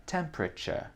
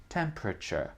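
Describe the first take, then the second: Both takes have the same delivery.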